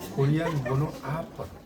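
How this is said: Opera is said English-style, like ah-puh-ruh. The speaker calls it right. "영어로는 아퍼로 이렇게 읽어요"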